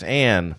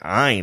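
First: The name is said to sound like Anne. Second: The name is said with a vowel unlike Anne. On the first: This is the name's real pronunciation. The speaker calls it right. "Her name's Anne" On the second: This is how other people say it. The speaker calls it wrong. "people be like, Ayn Rand?"

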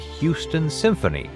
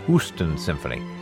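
First: Houston is said the usual way, with 'hyoo'. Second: Houston is said with a plain 'hoo' sound.

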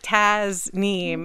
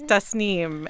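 First: The middle consonant is a buzzing z sound. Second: The middle consonant is a hissing s sound. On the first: The speaker calls it wrong. "it's not Taz Neem" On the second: The speaker calls it right. "it's Das Neem"

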